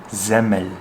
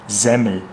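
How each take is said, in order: The two takes are said the same way.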